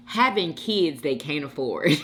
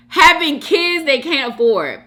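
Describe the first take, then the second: First: Said in the usual way. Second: High, loud read-out in disbelief; raised voice, reacting to a juicy comment; amazed loud repeat. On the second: Real, not acted. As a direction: repeat it loudly, scandalized and amused.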